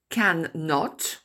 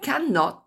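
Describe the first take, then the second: First: Can and not are said as separate words. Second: Can and not are joined into one word. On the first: "On a toujours le droit de détacher le not" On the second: "Ils sont attachés"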